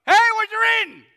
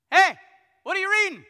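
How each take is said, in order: First: Much higher and louder, a shouted hail; loud call-out. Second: Higher, louder call up to a passing rider. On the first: Philip shouts up to the treasurer in his chariot, high and loud. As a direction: belt it out to the passing chariot. Retelling the deacon's call, bigger. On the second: Philip calls up to the treasurer riding by, loud and high. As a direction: hail him from the roadside, loud and high. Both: Retold or imitated.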